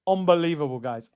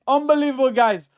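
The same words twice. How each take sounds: First: Said in the usual way. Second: "Unbelievable" higher and louder, overjoyed; excited yell. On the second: Real, not acted. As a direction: burst out "Unbelievable" to the chat.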